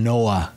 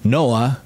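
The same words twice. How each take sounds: No difference in how they are said.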